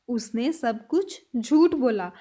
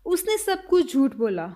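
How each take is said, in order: First: Slower, lower repeat. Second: Said in the usual way. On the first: Shown as a demonstration. Teacher repeating the sentence slowly for students. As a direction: say it slowly once more. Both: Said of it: "next sentence".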